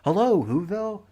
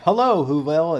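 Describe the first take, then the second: First: It is said quietly, like a faint echo. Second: It is said loudly, like an announcement.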